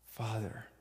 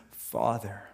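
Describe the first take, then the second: First: Soft tender Father. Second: Said in the usual way. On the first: Acted. Jesus's last tender cry, echoed.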